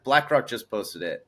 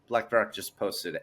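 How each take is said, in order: First: It sounds eager and salesy. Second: It sounds offhand and understated. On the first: The speaker is openly promoting crypto. The speaker calls it wrong. "I don't even say it like that" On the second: The speaker lets the news speak for itself. The speaker calls it right. "as non shill as possible"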